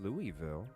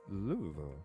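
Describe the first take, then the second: First: The name is said fully and clearly. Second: The name is said slurred and mumbled. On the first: The speaker calls it wrong. "It's not Louisville" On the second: The speaker calls it right. "like you got marbles in your mouth"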